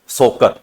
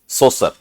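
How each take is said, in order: First: The middle consonant is a k sound. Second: The middle consonant is an s sound. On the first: "जैसे आपने सुनने को सोकर" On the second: "या सोसर बोल देते हैं"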